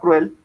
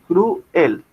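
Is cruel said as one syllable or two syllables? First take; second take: one; two. First: The word is said as one syllable. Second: The word is said as two syllables. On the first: The speaker calls it right. "puede ser pronunciado como una palabra monosílaba cruel" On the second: The speaker calls it wrong. "es mucho mejor una palabra monosílaba que decir"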